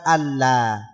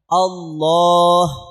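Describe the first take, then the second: First: The l sound is thin and light. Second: The l sound is thick and heavy. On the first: The speaker calls it wrong. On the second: The speaker calls it right. "Lamnya harus tebal"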